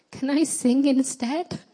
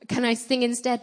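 First: High, slow, drawn-out meek plea; pathetic little voice. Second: Higher, mildly pitiful plea; pathetic little voice. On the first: Nervous singer asking the preacher to let her off, pathetic little voice. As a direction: plead in a small pitiful voice, pitch lifting at the end. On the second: Nervous singer asking the preacher to sing instead, mildly pathetic voice. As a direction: repeat the meek request, lightly put on. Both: Retold or imitated. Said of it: "in a very pathetic little voice".

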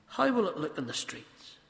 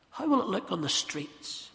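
The two takes are said the same way.

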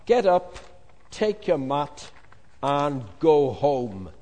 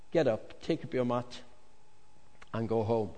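First: Booming slow command. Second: Soft, quiet, kindly instruction; soft tender command; gentle. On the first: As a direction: order him up with full authority. Jesus commands the paralytic. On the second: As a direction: speak it gently, close to him. Jesus speaks gently to him. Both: Acted.

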